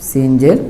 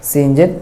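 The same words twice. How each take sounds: Both takes have the same delivery.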